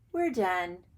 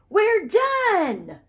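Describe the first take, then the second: First: It is said flatly, without force. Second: It is said with excited, forceful energy.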